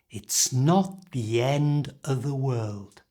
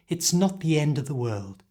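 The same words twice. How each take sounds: First: The phrase is said at a slower pace. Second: The phrase is said at full speed. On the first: "So the whole thing is" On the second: "And at full speed"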